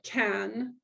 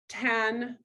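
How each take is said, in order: First: Said in the usual way. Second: Tan said with a front t for the c; slow, careful tan with a clear t. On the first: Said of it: "instead of can". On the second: Shown as a demonstration. Speech therapist showing a parent the fronted tan. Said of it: "substituting a sound in the front".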